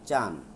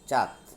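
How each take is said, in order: First: The word ends in an n sound. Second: The word ends in a d sound. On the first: This is the regional dialect form. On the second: This is the standard form.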